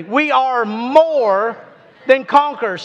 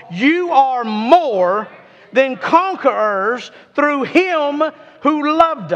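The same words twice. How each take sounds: First: Said in the usual way. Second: Slow, each word weighed, "You are more" drawn out; mean every word of "than conquerors"; with some meaning. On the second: Shown as a demonstration. Preacher urging the congregation to say it with meaning. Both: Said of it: "Say it with some meaning".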